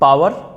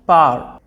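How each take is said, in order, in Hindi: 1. w की ध्वनि स्वरों के बीच बोली जाती है। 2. w की ध्वनि पूरी तरह छोड़ दी जाती है। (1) "बहुत से लोग क्या करते हैं कि इन शब्दों को बोलते हैं पावर" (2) "डब्ल्यू को साइलेंट कर दीजिए"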